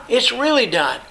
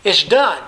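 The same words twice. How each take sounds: First: "really" lifted high and leaned on, then falling; stress on really. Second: Said in the usual way. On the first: Shown as a demonstration. Preacher to congregation, showing the emphatic form, "really" stressed. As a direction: hit the word "really" hard. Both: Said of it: "an emphatic form of the first term".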